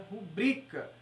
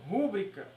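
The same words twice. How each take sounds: First: "rubrica" stressed on the middle syllable, ru-BRI-ca; "rubrica" with stress on the second syllable; correct stress. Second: "rúbrica" stressed on the first syllable, RÚ-bri-ca; "rúbrica" with stress wrongly on the first syllable. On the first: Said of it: "o certo é rubrica". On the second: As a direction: show the mistake: "rúbrica", stress on RÚ. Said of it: "mas o certo é rubrica". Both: Shown as a demonstration.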